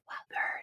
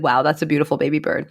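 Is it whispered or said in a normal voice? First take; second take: whispered; normal. First: It is whispered very softly. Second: It is said in a normal voice.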